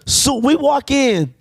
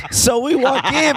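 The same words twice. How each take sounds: First: Slow, weighty restart; slow dramatic retake. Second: Higher, giggling start; cracking up at his own line; laughing. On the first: Shown as a demonstration. Retaking the story's opening beat for the listeners, slow and deliberate. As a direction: lay the line down slowly for effect. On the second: Real, not acted. Retelling the diner story, laughing at his own line. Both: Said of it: "That's a really good line".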